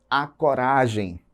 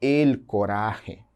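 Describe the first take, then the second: First: Said in the usual way. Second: "el coraje" very slowly in Spanish, j as throaty h; deliberate, drawn-out Spanish "el coraje"; Spanish pronunciation. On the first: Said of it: "femininos no português". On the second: Shown as a demonstration. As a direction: say "el coraje" as el co-RA-khe. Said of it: "Em espanhol eu digo".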